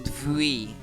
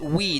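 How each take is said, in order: First: The word begins with a v sound. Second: The word begins with a w sound. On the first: The speaker calls it wrong. "not vui" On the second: The speaker calls it right. "It's we"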